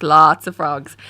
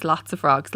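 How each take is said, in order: First: LOTS hit hard and much louder; emphatic repeat. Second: Said in the usual way. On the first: Real, not acted. Founder on pitching to investors, emphatic repeat. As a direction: lean heavily on "lots" to stress the quantity.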